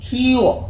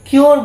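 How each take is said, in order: First: The word ends in a vowel with no r. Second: The word ends with an audible r sound. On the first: The speaker calls it right. "খিও খিও উ" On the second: The speaker calls it wrong. "কিওর বলি না আমরা"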